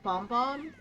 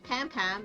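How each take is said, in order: First: The vowel is a strongly rounded, exaggerated o. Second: The vowel sounds like the a in cat. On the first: This is how the name is said now. "it's Pom Pom. ... a really exaggerated O" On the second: This is how the name was said in the past. "is not Pam Pam anymore"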